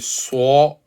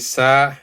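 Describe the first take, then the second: First: The letter is pronounced heavy, with a full mouth. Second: The letter is pronounced light, without heaviness. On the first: The speaker calls it right. "then you have fulfilled the description" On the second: The speaker calls it wrong. "you haven't fulfilled the description of the letter, which is a description of heaviness"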